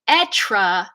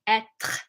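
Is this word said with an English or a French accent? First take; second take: English; French. First: It is said with an English accent. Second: It is said with a French accent. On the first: The speaker calls it wrong. "an English speaker without a good French accent would say être" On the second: The speaker calls it right. "if you're saying it in French"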